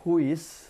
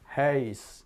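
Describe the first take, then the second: First: The vowel is a plain u-i glide. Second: The vowel is a rounded ah-like sound. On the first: The speaker calls it wrong. "rumah itu tidak huis" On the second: The speaker calls it right. "tapi heis. Mulutnya bulat tapi yang keluar seperti A"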